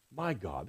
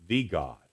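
First: Softly stressed "my" before "God". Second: "The" said as a full "thee"; stress on THE. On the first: Preacher contrasts David's personal words, "my" softly stressed. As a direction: make "my" personal and intimate, voice dropped soft. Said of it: "This is personal". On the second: Preacher shows what David doesn't say, "The" stressed. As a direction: lean on "The", pronounced thee, before "God". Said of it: "David doesn't say". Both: Shown as a demonstration.

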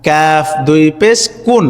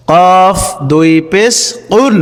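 First: কাফ and কুন with plain k; thin, easy KOON for কুন; light kun. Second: Slow spelling, thick QOON for কুন; heavy qun. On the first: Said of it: "আর এই হরফটির উচ্চারণ হচ্ছে". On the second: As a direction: say কফ and কুন from back of tongue, slowly. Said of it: "সঠিক উচ্চারণ লক্ষ্য করুন". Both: Shown as a demonstration.

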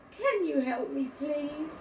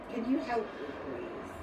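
First: High, louder begging, acted as a tearful child; tearful plea. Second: Said in the usual way. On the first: A narrator's reading. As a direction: plead like an upset little boy. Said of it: "His eyes welled up with tears".

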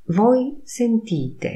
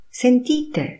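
First: Said in the usual way. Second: "Sentite" higher, falling like an order; commanding tune. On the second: Shown as a demonstration. Teacher says "Sentite" as an order to the class. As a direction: tell the group: "Sentite!". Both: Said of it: "intonacja powodują".

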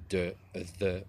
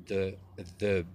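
No difference in how they are said.

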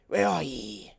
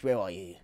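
First: Louder put-on "ye" voice; playful old-timey call. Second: Said in the usual way. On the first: Gamer calling to a crafting bench, playful old-timey. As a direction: call out "ye" in mock archaic style.

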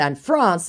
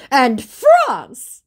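First: Said in the usual way. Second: High, loud proclamation; mock indignant scammer. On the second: Scammer adding another country to blame, mock indignant. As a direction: fling it out as an accusation.

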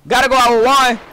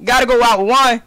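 No difference in how they are said.

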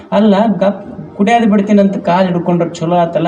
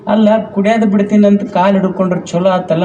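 First: Lightly voiced neighbour woman, puzzled; a hint of a curious old woman; old neighbour asking. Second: Higher and faster, insisting on ಅಲ್ಲ; exasperated neighbour. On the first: Neighbour woman asking the crying wife, mildly puzzled. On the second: Retold or imitated. Old neighbour repeating her question to the wife, exasperated. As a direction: push the repeat with mock impatience. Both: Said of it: "ಮಗ್ಗಲ ಮನಿ ಮುದುಕಿ ಬಂತು".

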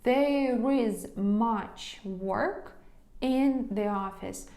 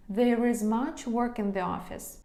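First: Slow, word-by-word model sentence; slow dictation. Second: Said in the usual way. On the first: Shown as a demonstration. Teacher dictating slowly to students, slow and deliberate. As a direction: spell it out slowly for the class.

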